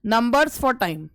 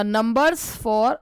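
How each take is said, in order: First: Numbers for time said slowly and evenly, falling on for; slow clear phrase. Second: Numbers drawn out very slowly with a rise; slow stressed phrase. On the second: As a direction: linger on numbers for. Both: Shown as a demonstration.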